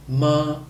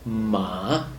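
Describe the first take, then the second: First: The pitch stays level throughout. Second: The pitch falls and then rises. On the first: It means mother. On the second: It means horse.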